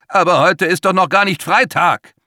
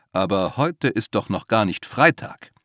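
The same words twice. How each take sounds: First: High, loud desperate objection; 1 panicked protest. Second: Said in the usual way. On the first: A narrator's reading. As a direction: plead that it is not Friday yet. Max protests against the monster.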